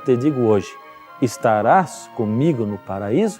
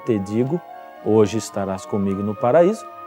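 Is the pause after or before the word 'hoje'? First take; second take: after; before. First: The pause comes after the word hoje. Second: The pause comes before the word hoje. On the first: The promise is made today about being there someday. "já significa que Jesus estava prometendo naquele dia" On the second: The promise is to be in paradise that same day. "significa o que muitos pensam"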